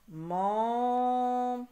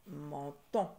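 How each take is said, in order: First: "Menton" with first syllable held high, loud and very long; loud, sustained, split "Menton". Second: Said in the usual way. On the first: Shown as a demonstration. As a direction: stretch "Men", pause, then "ton". Teacher sounding out syllables.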